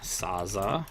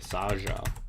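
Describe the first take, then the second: First: The middle consonant is a Z sound. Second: The middle consonant is a J sound. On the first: The speaker calls it wrong. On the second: The speaker calls it right.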